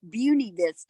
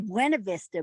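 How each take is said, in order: First: The first word is said in an anglicized way. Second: The first word is said Spanish-style. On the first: This is how the locals say it. "they say it's Beauty Vista" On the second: This is how the speaker personally says it. "I always say Buena Vista"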